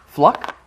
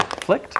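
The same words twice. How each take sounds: First: Fluck said with a short u like luck; puzzled pronunciation. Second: Flicked said with a puzzled lilt; puzzled pronunciation. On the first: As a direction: sound out Fluck with an uh vowel. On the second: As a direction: try out Flicked with a short i. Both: Shown as a demonstration. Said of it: "Is it fluck?".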